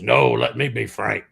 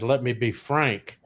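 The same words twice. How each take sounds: First: "No, let me be frank." with "No" punched and the line a bit louder; wife's louder comeback, punching "No"; wife's retort. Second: "Let me be frank." said slowly, ending on a falling "frank"; slow setup line. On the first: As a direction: cut in with "No" and claim the line for yourself, a touch louder. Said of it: "And my wife goes". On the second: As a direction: deliver "Let me be frank." as a slow, earnest confession with the weight on "frank". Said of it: "and I said". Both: Retold or imitated.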